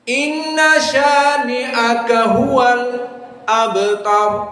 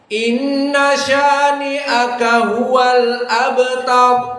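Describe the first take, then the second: First: A brief silent break comes before the last word. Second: The phrase runs on without a break before the last word. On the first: "Hamzah Az-Zayyat dengan sakta" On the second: "hafaz an Asim yang kalian hafal"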